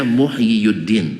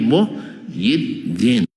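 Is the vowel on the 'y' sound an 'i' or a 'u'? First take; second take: u; i. First: The y sound carries a u vowel. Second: The y sound carries an i vowel. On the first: The speaker calls it wrong. "Tidak dibaca Muhyiddin" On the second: The speaker calls it right. "tapi Muhyiddin"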